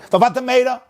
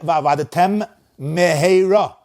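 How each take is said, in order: First: The two words run together without a pause. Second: A short pause separates the two words. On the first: The speaker calls it wrong. "Don't say" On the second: The speaker calls it right. "A little pause"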